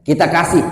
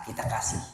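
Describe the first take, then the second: First: Louder, firm declaration; loud repeat. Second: Quiet first take. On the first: Preacher loudly urges the congregation to give. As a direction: punch it out to the congregation. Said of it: "nah, kita kasih". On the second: Preacher softly says give to the needy. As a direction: say it softly to yourself. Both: Shown as a demonstration.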